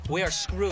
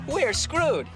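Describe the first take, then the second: First: It sounds gloomy and defeated. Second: It sounds cheerful and upbeat.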